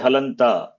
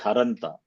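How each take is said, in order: First: The middle consonant is an L sound. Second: The middle consonant is an R sound. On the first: This is the form people usually say. "even we say Halanta" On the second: This form is not in common use. "we don't say Haranta"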